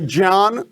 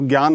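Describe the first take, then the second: First: The first sound is j joined with n. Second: The first sound is the common everyday form. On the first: Listeners would think it is a mistake. "अगर आप बोलेंगे ज्ञान तो लोग कहेंगे कि आप गड़बड़ बोल रहे हैं" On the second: It is accepted as the standard. "तो ज्ञान आप बोलिए, कोई दिक्कत नहीं है"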